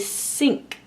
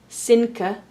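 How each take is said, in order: First: The word ends cleanly on the k sound. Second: The word ends with an extra vowel after k. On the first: The speaker calls it right. "We say sink" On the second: The speaker calls it wrong. "We don't say sinka"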